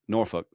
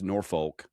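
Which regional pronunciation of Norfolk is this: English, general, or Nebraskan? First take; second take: English; Nebraskan. First: It is said with an English pronunciation. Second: It is said with a Nebraskan pronunciation. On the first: "in England they say Norfolk" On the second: "the way people in Nebraska say it is Norfolk"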